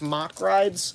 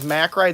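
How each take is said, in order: First: The first vowel sounds like the 'o' in 'lock'. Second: The first vowel sounds like the 'a' in 'cat'. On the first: The speaker calls it right. "it's Mock rides" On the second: The speaker calls it wrong. "everyone says Mack rides"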